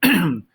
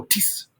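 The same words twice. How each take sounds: First: "Tatis" drawn out, taaah-tiis; sustained choral Tatis; not cut off. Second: "tis" chopped very short, abrupt S; a curt bad-example tis with no held vowel; wrong early cutoff. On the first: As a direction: hold the vowels of Tatis, S at the very end. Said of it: "don't cut off the tis too soon". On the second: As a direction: snap straight to the s of tis. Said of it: "Don't go tis". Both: Shown as a demonstration.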